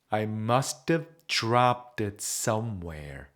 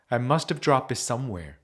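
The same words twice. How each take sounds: First: The sentence is said slowly and carefully. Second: The sentence is said quickly with reduced sounds. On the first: "조금 느리게 발음해 드리면" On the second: "얘가 빨라져서"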